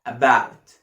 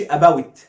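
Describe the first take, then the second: First: "About" low, with a long open ow; unhurried correct model. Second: "about" closed off as "a-ba-wit"; mis-say "about", shutting the ow quickly; wrong pronunciation demo. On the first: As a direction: hold the ow in "About" before the t. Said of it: "مش هقفلها بسرعة". (نطق "About" بمد آو) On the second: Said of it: "ما أقولش about". (نطق "about" غلط ومقفول) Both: Shown as a demonstration.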